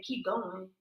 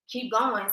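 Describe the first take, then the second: First: Inner voice urging. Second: Said in the usual way. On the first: Retold or imitated. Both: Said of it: "this voice in my head saying".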